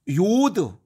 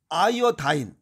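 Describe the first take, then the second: First: It is said as one syllable, 'yod'. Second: It ends with an 'eye-uh-dine' sound. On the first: "요드는 독일식 발음이고" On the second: "아이오다인은 이건 미국식 발음입니다"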